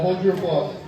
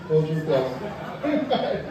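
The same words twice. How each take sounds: First: Said in the usual way. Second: Slow, laughing. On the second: Shown as a demonstration.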